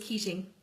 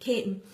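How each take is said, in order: First: The name is said the way it is spelled. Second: The name is said in the local form. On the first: "it's spelled Keating" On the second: "as we pronounce it in Tipperary"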